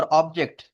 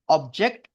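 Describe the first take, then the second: First: object with the beat at the back; second-syllable stress. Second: object with the beat at the front; first-syllable stress. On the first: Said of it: "second syllable पे stress करोगे". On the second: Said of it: "पहला syllable पे stress करोगे". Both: Shown as a demonstration.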